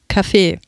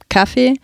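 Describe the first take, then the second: First: The stress is on the second syllable. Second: The stress is on the first syllable. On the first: "betonen es auf der zweiten Silbe" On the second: "Entgegen dem Vorbild der Schauspieler bleibt die Bevölkerung beim Kaffee"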